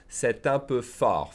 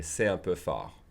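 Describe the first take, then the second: First: Slow "C'est un" with the T sounded into "un"; liaison made. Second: "C'est un" with silent T, lower; liaison skipped. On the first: Teacher demonstrates the liaison to learners, T sounded in "C'est un". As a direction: link "C'est un" as "seh-tun", slowly. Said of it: "I'm making the liaison". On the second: Teacher shows fast speech to learners, no T in "C'est un". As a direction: glide from "C'est" to "un" without a T. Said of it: "I would skip the liaison". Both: Shown as a demonstration.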